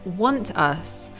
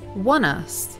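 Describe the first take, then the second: First: Both words are fully articulated with a clear t. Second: The words are reduced and linked, dropping the t. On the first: "she doesn't fully articulate this as want us" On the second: "She says"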